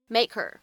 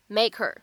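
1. h被省略了，单词连在一起读。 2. h被省略了，单词连在一起读。

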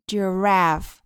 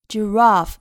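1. 这是美式口音。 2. 这是英式口音。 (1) "美音发的是a giraffe" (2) "英音发的是长音r giraffe"

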